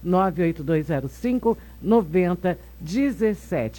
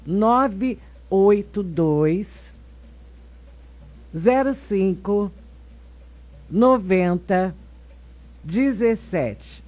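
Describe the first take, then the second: First: The number is said at a quick pace. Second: The number is said slowly and calmly.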